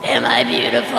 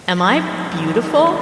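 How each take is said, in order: First: Much lower, sinister ghost voice; deep demonic ghost. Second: Rising, lightly eerie ghost question; eerie ghost woman. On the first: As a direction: drop into a low monstrous growl of a question. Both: Acted. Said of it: "Or maybe more like".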